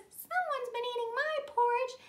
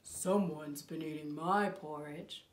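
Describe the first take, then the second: First: Very high, louder little bear voice; tiny bear. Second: Slow, low bear voice; great big bear. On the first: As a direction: pipe it up high like a wee bear. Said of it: "And the tiny bear says". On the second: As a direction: rumble it low like a huge bear. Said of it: "What does the great big bear say?". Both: Acted.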